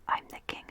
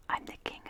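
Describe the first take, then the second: No difference in how they are said.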